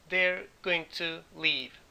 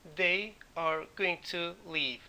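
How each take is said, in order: First: They are is contracted into one syllable. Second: They are is said as two full words.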